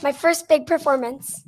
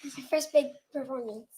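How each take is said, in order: First: Said louder when asked; louder on request. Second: Quiet, shy. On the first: Shown as a demonstration. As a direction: speak up so the room hears. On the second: Real, not acted. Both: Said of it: "Say it louder".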